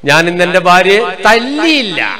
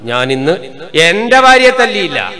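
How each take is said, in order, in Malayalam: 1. അവസാനത്തെ വാക്ക്, തല്ലിയില്ല, ഊന്നൽ ഉള്ളതാണ്. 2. മൂന്നാമത്തെ വാക്ക്, എന്റെ, ഊന്നൽ ഉള്ളതാണ്. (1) "അർത്ഥം എന്നാ കൊടുത്തു" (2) "മറ്റവന്റെ ഭാര്യയെ കൊടുത്തിരുന്നു"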